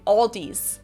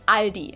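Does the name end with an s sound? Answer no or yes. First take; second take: yes; no. First: The name ends with an added s sound. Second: The name ends on a vowel, no s. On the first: The speaker calls it wrong. "they also sometimes add an S that isn't there in the end" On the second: The speaker calls it right. "In Germany, we just say Aldi"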